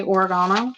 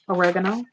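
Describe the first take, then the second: First: Oregano as or-uh-GAH-no; other pronunciation. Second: Oregano as uh-REG-uh-no, questioning; own pronunciation. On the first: Offering viewers the other version, oregano as or-uh-GAH-no. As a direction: put the stress on GAH in oregano. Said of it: "Do you say oregano?". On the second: Offering viewers her own version, oregano as uh-REG-uh-no. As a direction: put the stress on REG in oregano, rising at the end. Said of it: "I say oregano". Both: Shown as a demonstration.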